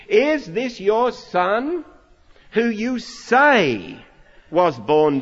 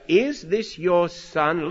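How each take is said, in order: First: "is this your son who you say was born blind" slow, each word pressed higher and louder; leading-the-witness stress. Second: Said in the usual way. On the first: Shown as a demonstration. Preacher mimicking the leading question, slow and pointed. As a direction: lean hard on "is", slow and accusing. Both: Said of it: "Listen carefully".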